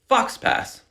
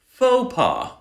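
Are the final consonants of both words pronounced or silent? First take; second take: pronounced; silent. First: The final consonants of both words are pronounced. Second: The final consonants of both words are silent. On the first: The reader guessed from the spelling. The speaker calls it wrong. "You might see something like this and pronounce it fox pass" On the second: The reader learned it by listening. The speaker calls it right. "just repeat after me"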